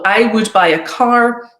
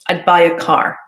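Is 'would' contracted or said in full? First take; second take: full; contracted. First: The word would is said in full. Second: The word would is contracted to a d. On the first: The speaker calls it wrong. "it's unusual for us to not make that contraction" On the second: The speaker calls it right. "we need to be contracting would"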